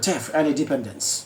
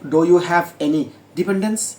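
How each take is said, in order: First: The first three words merge into one syllable. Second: Each word is said separately and fully. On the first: The speaker calls it right. "তিনটা শব্দকে একসাথে উচ্চারণ করবে" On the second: The speaker calls it wrong. "আমি যেভাবে বলেছি এইভাবে বলবে না"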